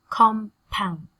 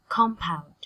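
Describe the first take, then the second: First: "compound" split into two separate beats, COM, POUND; carefully separated syllables in "compound". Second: Said in the usual way. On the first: Shown as a demonstration. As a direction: pause between "com" and "pound". Teacher breaks word into syllables.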